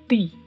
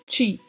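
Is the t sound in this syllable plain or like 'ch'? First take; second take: plain; like ch. First: The t is a plain, crisp t sound. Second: The t is softened into a 'ch' sound. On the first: The speaker calls it right. "e sim como ti" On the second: The speaker calls it wrong. "não é pronunciado como ti"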